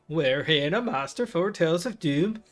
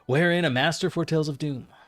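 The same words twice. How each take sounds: First: It is read in a put-on Swedish accent. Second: It is read in his normal voice.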